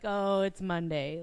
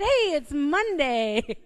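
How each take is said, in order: First: It is said in a gloomy, dreading tone. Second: It is said in a cheerful, upbeat tone.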